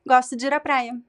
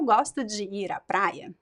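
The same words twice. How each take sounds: First: The phrase is spoken quickly with words run together. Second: The phrase is spoken slowly and carefully. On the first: "But then in a natural speech" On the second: "If I speak slowly"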